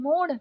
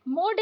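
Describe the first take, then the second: First: मोड़ with flapped ड़; correct flapped ड़. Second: मोड़ with hard ड stop; wrong hard D. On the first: Teacher correcting learners, flapped मोड़. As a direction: flick the final ड़ in मोड़. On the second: Teacher showing learners the mistake, hard-D मोड़. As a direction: end मोड़ on D, no flap. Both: Shown as a demonstration. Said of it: "नहीं".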